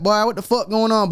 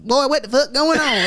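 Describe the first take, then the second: First: Higher, country Atlanta slang impression; Atlanta black slang. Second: Put-on much higher, twangy Southern white country accent; same line but as a country white guy; country white twang. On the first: Showing how Atlanta black folks talk, Southern slang impression. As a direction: toss it off like a local Atlanta guy. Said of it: "out in Atlanta, they like". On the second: Contrasting white Atlanta slang, twangy Southern white accent. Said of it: "in the white".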